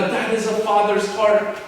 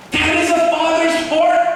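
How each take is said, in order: First: Said in the usual way. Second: "That is a father's heart" cried out high and loud, "heart" hit hardest; emphatic preaching. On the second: Shown as a demonstration. Preacher driving home a father's love, loud emphatic cry.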